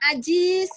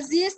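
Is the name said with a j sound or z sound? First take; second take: j sound; z sound. First: The name is said with a j sound. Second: The name is said with a z sound.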